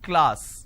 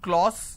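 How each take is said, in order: First: The vowel sounds like an a. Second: The vowel sounds like an o. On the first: The speaker calls it right. "it's class" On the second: The speaker calls it wrong. "they make it O"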